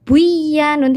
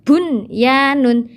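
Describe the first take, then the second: First: The n sound merges into the y. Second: The n sound is pronounced clearly before y. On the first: The speaker calls it wrong. "tidak boleh dibaca" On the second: The speaker calls it right. "harus dibaca jelas"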